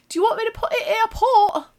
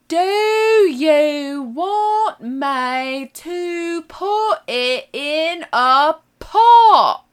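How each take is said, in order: First: It is said at a normal speed. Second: It is said slowly and deliberately.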